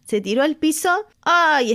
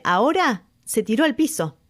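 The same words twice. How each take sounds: First: Overwhelmed by the moment; thrilled exclaim. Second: Said in the usual way. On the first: Real, not acted. Thrilled by singer's move. (exclamación emocionada, mucho más aguda)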